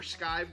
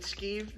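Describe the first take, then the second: First: The vowel sounds like 'eye' in 'five'. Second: The vowel sounds like 'ee' in 'see'. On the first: The speaker calls it right. "or skived, I should say" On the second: The speaker calls it wrong. "I always say that wrong, like I'm skeeved out"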